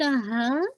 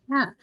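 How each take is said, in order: First: हा as the mistaken h sound, said firmly; wrong haa. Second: हा as a short breathy h from the throat; correct haa. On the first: Teacher shows which sound to avoid, wrong articulation. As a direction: give the wrong kind of हा. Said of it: "not the हा". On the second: Teacher models the right sound, correct articulation. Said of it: "ये sound". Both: Shown as a demonstration.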